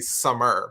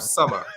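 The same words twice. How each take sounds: First: The final r sound is pronounced. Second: The final r sound is dropped. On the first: "can say summer, but it sounds so weird" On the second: "I can't say um, uh, E Rs at the end of sentences"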